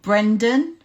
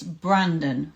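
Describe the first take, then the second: First: The first vowel sounds like 'e' in 'bed'. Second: The first vowel sounds like 'a' in 'bad'. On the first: The speaker calls it wrong. "I said it wrong. It's not Brendan" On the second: The speaker calls it right. "It's Brandon from Clear Minds"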